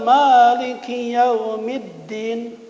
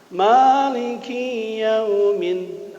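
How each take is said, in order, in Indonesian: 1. Kata-katanya menyambung tanpa jeda. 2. Ada jeda setelah kata pertama. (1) "Maliki pendek. Tekengeng ngambil jeda" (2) "mengambil spasi atau jeda di Maliki yaumiddin, ada yang baca gitu"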